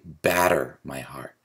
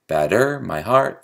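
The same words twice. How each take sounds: First: BATter my HEART, "Batter" falling away after its first syllable; natural first-syllable stress. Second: "Batter" tipped onto its second syllable, batTER my HEART; forced iambic stress. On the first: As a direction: land hard on the start of "batter". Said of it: "but it's really". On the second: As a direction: lift "-ter" and "heart" in a forced da-DUM. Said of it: "I suppose we could say". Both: Shown as a demonstration.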